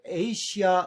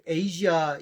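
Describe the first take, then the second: First: The middle consonant is a plain s sound. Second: The middle consonant is a voiced zh sound. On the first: The speaker calls it wrong. "S로 쓰고 에이시아 우리가 이렇게 많이 하는데" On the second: The speaker calls it right. "이게 더 일반적인 발음인 것 같거든요"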